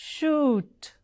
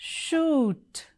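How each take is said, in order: No difference in how they are said.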